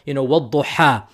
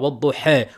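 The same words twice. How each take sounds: First: The final vowel is a full open a. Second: The final vowel leans slightly toward e.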